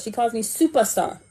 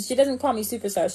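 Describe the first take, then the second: First: Firm correction on calls; stress on calls. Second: Doesn't hurried and falling; quick dismissive correction; stress on calls. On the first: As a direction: lean on calls in She calls me superstar. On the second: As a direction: rattle off She doesn't call me superstar, quick and dismissive. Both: Shown as a demonstration.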